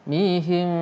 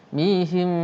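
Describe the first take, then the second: Both takes have the same delivery.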